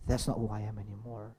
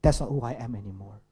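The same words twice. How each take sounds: First: Hushed self-talk. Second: Self-talk. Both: Shown as a demonstration. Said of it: "is simply by saying".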